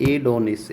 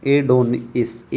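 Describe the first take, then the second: First: Said in the usual way. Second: एडोनिस stretched out slowly, syllables apart; teacher drawing out एडोनिस slowly; slow demo take. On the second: Shown as a demonstration. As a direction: sound out एडोनिस slowly for the class. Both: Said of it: "एडोनिस को कैसे याद करो?".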